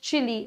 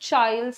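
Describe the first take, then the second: First: It has two syllables, ending in an 'ee' sound. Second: It rhymes with 'mild', ending in an 'ild' sound. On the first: "some people pronounce this as chili" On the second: "Some people pronounce this as child"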